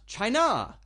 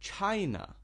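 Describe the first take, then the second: First: The stress is on the second syllable. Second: The stress is on the first syllable. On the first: The speaker calls it wrong. "Not China" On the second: The speaker calls it right. "China, the first part"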